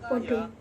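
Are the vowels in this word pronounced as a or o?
o. Both vowels are pronounced as a rounded o. This is the eastern Javanese form. "bahasa Jawa Wetanan, seperti Jogja, Surakarta, dan sekitarnya yang mengucapkan podo"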